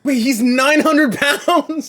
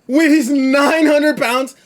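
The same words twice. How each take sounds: First: Shocked shout. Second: Shocked disbelief. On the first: Reaction to 900 pound man. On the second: Repeats in disbelief, laughing. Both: Real, not acted.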